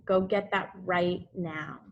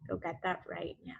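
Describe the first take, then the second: First: Said in the usual way. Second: Softer and faster, almost an aside; soft quick repeat. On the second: Shown as a demonstration. Teacher gently repeats the instruction to the class, soft and quick. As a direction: drop the volume and hurry the reminder.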